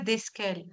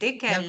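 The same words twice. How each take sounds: First: An S sound is pronounced after the first vowel. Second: No S sound is pronounced after the first vowel. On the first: The speaker calls it wrong. "c'est pas desquelles" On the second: The speaker calls it right. "On prononce pas le S"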